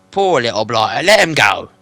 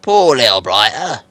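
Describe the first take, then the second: First: Loud troll voice. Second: Loud, slow troll. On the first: William repeats. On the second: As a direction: pity it like a troll. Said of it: "said William". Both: Acted.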